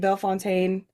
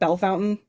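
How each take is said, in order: First: The name is said with French pronunciation. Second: The name is said with local pronunciation. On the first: This is how the name should be said. The speaker calls it right. "it's supposed to be Bellefontaine" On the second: This is how most locals say it. The speaker calls it wrong. "everybody calls it Bellefountain"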